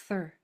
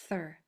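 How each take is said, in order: The two takes are said the same way.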